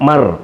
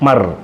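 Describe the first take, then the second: First: The two sounds are joined quickly into one syllable. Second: The same.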